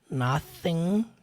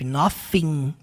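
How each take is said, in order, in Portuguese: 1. O primeiro som é um TH suave e sutil. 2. O primeiro som é um som de F. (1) "é mais sutil" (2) "para quem acha que é som de F"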